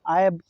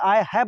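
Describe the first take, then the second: First: The words run together into one short syllable group. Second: Both words are said fully and separately. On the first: The speaker calls it right. "आयब बोलेंगे आप लोग" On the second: The speaker calls it wrong. "आई हैव नहीं बोलेंगे"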